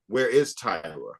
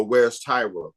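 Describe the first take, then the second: First: "is" leaned on, falling at the end; stress on IS. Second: Said in the usual way. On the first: Retold or imitated. Filmmaker shares people's question about the missing model, stress on "is". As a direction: echo the question back, punching "is". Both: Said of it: "People go".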